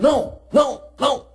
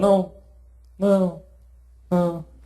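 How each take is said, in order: First: It is said sharply, like a command. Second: It is said softly and gently.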